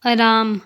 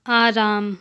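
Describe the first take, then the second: First: Short first vowel in "आराम", like "अराम"; incorrect pronunciation. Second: Long opening aa in "आराम"; correct pronunciation. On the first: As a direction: say "आराम" wrongly with a brief opening a. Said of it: "अशुद्ध शब्द". ("आराम" का अशुद्ध उच्चारण, शुरू में छोटा अ) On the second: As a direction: say "आराम" with the first vowel held long. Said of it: "शुद्ध शब्द". ("आराम" का शुद्ध उच्चारण, शुरू में लंबा आ) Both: Shown as a demonstration.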